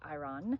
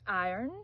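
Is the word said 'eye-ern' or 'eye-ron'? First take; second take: eye-ron; eye-ern. First: It sounds like 'eye-ron', as in irony. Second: It sounds like 'eye-ern', the r after the vowel. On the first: The speaker calls it wrong. "not iron" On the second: The speaker calls it right. "Like I earned a diploma"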